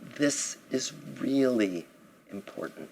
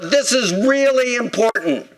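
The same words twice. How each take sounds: First: It is spoken softly. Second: It is spoken loudly. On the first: "when something's even more important" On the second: "Sometimes loud"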